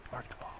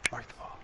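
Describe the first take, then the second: First: Said in the usual way. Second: Hushed whisper. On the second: Shown as a demonstration. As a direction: breathe it out in a whisper.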